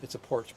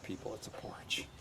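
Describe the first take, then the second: First: Said in the usual way. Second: Muttered under the breath; quiet aside. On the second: Real, not acted. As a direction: drop to a soft mutter.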